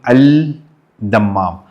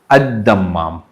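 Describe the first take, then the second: First: The article is said with a clear l sound. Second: The l is dropped and the d is doubled. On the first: The speaker calls it wrong. "it's written al dammam" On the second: The speaker calls it right. "you have to pronounce it as ad dammam"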